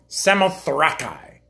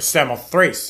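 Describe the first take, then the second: First: The name is pronounced in a non-English way. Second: The name is pronounced in the English way.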